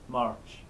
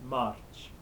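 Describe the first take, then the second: No difference in how they are said.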